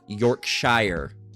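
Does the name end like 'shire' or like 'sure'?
shire. The ending sounds like 'shire'. This is how people here say it. "But people here say uh"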